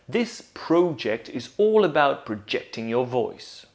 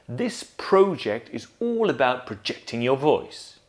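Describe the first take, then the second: No difference in how they are said.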